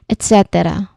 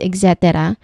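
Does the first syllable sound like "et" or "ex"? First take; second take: et; ex. First: It begins with "et" without a k sound. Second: It begins with "ex" with a k sound. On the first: The speaker calls it right. "our handy way of saying and so on" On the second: The speaker calls it wrong. "the common mistake is"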